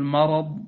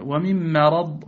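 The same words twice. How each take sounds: First: "مرض" with dark, backed a after m; wrongly heavy mim. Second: Slow "ومن مرض", thin front a after m; light mim. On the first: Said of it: "فلا تقل مرض". (تفخيم ميم "مرض") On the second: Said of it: "فاحذر من تفخيمها". (ترقيق ميم "مرض") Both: Shown as a demonstration.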